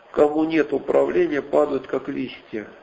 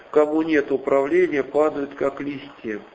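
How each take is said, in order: The two takes are said the same way.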